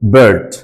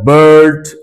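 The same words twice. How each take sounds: First: The vowel is kept short. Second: The vowel is drawn out long. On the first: The speaker calls it right. "সরাসরি" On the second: The speaker calls it wrong. "এরকম লম্বা করে উচ্চারণ হচ্ছে না"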